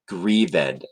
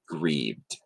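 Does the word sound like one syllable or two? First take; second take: two; one. First: The -ed ending is a separate stressed syllable. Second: The -ed ending is silent and unstressed. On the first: The speaker calls it right. "you would say it with this stressed" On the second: The speaker calls it wrong. "not grieved"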